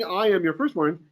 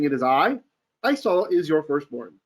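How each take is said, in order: First: "I am your firstborn" as one unbroken statement; no pause after "I"; run-on phrasing. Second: "It is I", full stop, then "Esau is your firstborn"; two separate statements, split between "I" and "Esau"; pause after "I". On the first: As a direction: say "I am your firstborn" straight through, no break. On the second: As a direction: break firmly after "I" before "Esau". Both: Shown as a demonstration. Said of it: "the way that the accent marks break it up".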